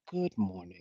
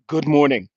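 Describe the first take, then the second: First: The greeting sounds warm and genuine. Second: The greeting sounds forced and demanding.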